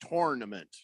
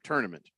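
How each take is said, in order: First: The first syllable sounds like the word torn. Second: The first syllable sounds like the word tour. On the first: "you say torn, like tournament" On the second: "instead of tournament"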